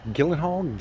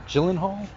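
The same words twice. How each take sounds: First: Gyllenhaal begun with a hard G as in "gift"; hard-G pronunciation. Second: Gyllenhaal begun with a J sound, questioning; soft-G pronunciation. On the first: Vlogger trying out the actor's name, Gyllenhaal with a hard G. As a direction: say "Gyllenhaal" as "Gillenhall". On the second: Vlogger trying out the actor's name, Gyllenhaal with a soft G. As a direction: say "Gyllenhaal" as "Jillenhall", unsure. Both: Shown as a demonstration. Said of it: "G-, G".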